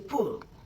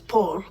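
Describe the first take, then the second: First: The vowel sounds like the one in pull. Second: The vowel sounds like the one in ball. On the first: "or you can say Pul" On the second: "it's pronounced as Paul"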